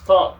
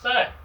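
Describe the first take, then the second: First: The vowel sounds like the one in 'song'. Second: The vowel sounds like the one in 'cat'. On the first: The speaker calls it right. "It's pronounced thong, like like this, like a sandal" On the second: The speaker calls it wrong. "that's not how it's pronounced in Vietnamese"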